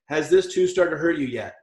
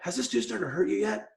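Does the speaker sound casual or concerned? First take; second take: casual; concerned. First: The question is asked in a casual, unconcerned tone. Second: The question is asked in a worried, concerned tone. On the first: The problem seems unimportant. The speaker calls it wrong. "let me do it the wrong way" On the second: The problem is serious and worrying. The speaker calls it right. "Tone of voice and follow-up. ... I'm really concerned about this one"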